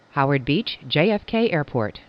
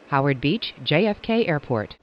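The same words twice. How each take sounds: The two takes are said the same way.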